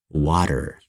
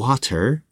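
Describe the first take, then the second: First: The middle consonant is a quick, soft D-like flap. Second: The middle consonant is a crisp, hard T. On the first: The speaker calls it right. "we say water" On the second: The speaker calls it wrong. "Instead of saying water"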